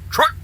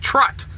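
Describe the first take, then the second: First: The word ends with a k sound. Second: The word ends with a t sound. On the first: The speaker calls it right. "It's truck" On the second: The speaker calls it wrong. "It's truck, not trut"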